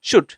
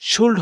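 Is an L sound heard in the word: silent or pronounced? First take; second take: silent; pronounced. First: The L sound is silent in the word. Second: The L sound is pronounced in the word. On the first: The speaker calls it right. "এই যে এলটা এখানে silent থাকবে" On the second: The speaker calls it wrong. "এটা শুল্ড হবে না"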